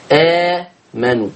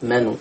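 First: آمنوا with a short two-count opening vowel; مد حركتين. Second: آمنوا with a very long held opening vowel; مد ست حركات. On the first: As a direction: hold the first a of آمنوا only briefly. (آمنوا بمد حركتين) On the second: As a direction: stretch the first a of آمنوا to six counts. (آمنوا بمد ست حركات) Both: Shown as a demonstration. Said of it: "اتنين أو أربعة أو ستة".

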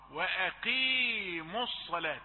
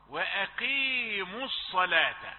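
First: وأقيموا with the qaf held at its lightest, since it takes kasra; correct qaf. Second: وأقيموا with the qaf made too heavy; wrong tafkhim. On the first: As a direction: model وأقيموا with a thin, lowest-degree qaf. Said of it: "فخ بالقاف أكثر من حقها". (القاف في وأقيموا في آخر درجات التفخيم) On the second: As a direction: demo the wrong وأقيموا, qaf overly thick. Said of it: "لا تقل وأقيموا". (قاف وأقيموا مفخمة أكثر من حقها) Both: Shown as a demonstration.

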